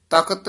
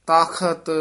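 First: "ਤਖਤ" as takat, with plain k; mispronunciation demo. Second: "ਤਖਤ" drawn out as taa-khat, aspirated kh; khakkha pronunciation. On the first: Teacher warning against kakka, "ਤਖਤ" with plain k. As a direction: drop the aspiration in "ਤਖਤ", saying takat. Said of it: "ਨਹੀਂ ਕਹਿਣਾ ਕੱਕਾ ਲਾ ਕੇ". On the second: Teacher correcting learners, "ਤਖਤ" with aspirated kh. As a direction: say "ਤਖਤ" with a clear breath on the kh. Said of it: "ਖੱਖੇ ਨਾਲ ਉਚਾਰਨ ਕਰਨਾ ਹੈ". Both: Shown as a demonstration.

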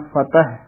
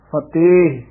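First: ਫਤਿਹ as "fa-teh"; short vowel and final h in ਫਤਿਹ; spelled without laan. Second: ਫਤਿਹ as "fa-tayh"; long ay before the h of ਫਤਿਹ; spelled with laan. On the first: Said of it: "ਉਸ ਦਾ ਉਚਾਰਨ ਹੈ". (ਫਤਿਹ ਛੋਟੀ ਮਾਤਰਾ ਨਾਲ) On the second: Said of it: "ਤੱਤੇ, ਲਾਂ". (ਫਤਿਹ ਨੂੰ ਲਾਂ ਨਾਲ 'ਫਤੇਹ') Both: Shown as a demonstration.

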